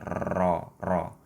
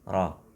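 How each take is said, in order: First: The r is trilled with many vibrations. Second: The r is one light tap. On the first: The speaker calls it wrong. "terlalu semangat dalam mengucapkan ro sehingga kadang getarannya berlebihan" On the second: The speaker calls it right. "Aslinya ro hanya satu getaran halus di ujung lidah"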